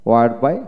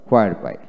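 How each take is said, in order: First: Where in "where by" with a plain w; British "wear" in "where by"; British pronunciation. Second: Where in "where by" starting on hw; American "hwear" in "where by"; American pronunciation. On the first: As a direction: drop the h in where, ending on a rise. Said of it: "হোয়াইট হলো British". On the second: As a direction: sound the h in where, ending on a fall. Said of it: "হোয়াইট হলো American". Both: Shown as a demonstration.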